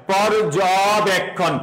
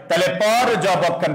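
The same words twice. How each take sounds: First: পর্যবেক্ষণ said slowly, each part pronounced clearly; slow careful demo. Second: Said in the usual way. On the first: Shown as a demonstration. Teacher showing students how পর্যবেক্ষণ splits, slow and careful. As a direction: break পর্যবেক্ষণ down slowly for the class. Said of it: "জয়ের পরে একটা অ উচ্চারণ হয়". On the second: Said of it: "সবাই একটু লক্ষ্য করো".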